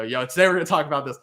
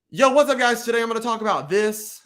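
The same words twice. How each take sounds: First: Own usual intro. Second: High, punchy short-video opener; YouTuber intro. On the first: Shown as a demonstration. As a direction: rattle off the intro in an everyday voice. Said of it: "'cause I always go". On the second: Acted. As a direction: greet viewers like an upbeat YouTuber. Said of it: "make a short where you're like".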